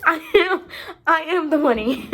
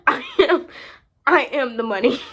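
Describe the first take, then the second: First: Loud, high, laughing through the words; laughing proclamation. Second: Loud proclamation. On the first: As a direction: crow it out between laughs. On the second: Repeats it, steadier. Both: Real, not acted.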